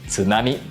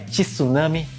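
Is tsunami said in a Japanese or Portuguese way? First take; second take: Japanese; Portuguese. First: The word is said in a Japanese way. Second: The word is said in a Portuguese way. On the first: The speaker calls it right. "mas sim tsunami" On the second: The speaker calls it wrong. "Não é tsunami"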